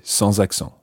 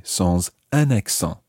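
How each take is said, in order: First: "sans accent" with no article, the s linking straight into accent; correct version. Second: "sans un accent" with the article un, the mistaken form; wrong version. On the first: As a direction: say "sans accent" the right way, liaison z sound. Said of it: "You just say". (teacher demoing the correct "sans accent") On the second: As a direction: say "sans un accent" as the error to avoid. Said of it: "You wouldn't say". (teacher demoing the wrong form "sans un accent") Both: Shown as a demonstration.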